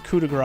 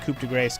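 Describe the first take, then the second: First: The last word does not rhyme with face. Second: The last word rhymes with face. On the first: The speaker calls it right. "It's coup de grace, I know" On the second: The speaker calls it wrong. "I am mispronouncing it on purpose. ... because it's there in your face"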